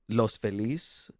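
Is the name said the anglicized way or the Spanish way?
Spanish. The name is said with Spanish pronunciation. The speaker calls it right. "The correct Spanish would be Los Feliz"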